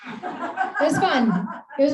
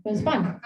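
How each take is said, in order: First: Slow, high, laughing through the words. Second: Said in the usual way. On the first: Real, not acted. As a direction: let the laugh carry it, drawn out. Laughs at weird reunion memory.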